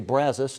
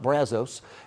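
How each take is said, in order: First: It uses the local Texan pronunciation of the name. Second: It uses a non-Texan pronunciation of the name. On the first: This is how people in Texas say it. The speaker calls it right. "in Texas, we do say Brazos" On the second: This is how outsiders say it. The speaker calls it wrong. "not Brazos"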